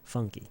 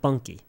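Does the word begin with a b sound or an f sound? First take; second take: f sound; b sound. First: The word begins with an f sound. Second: The word begins with a b sound. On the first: The speaker calls it right. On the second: The speaker calls it wrong. "Not bunky"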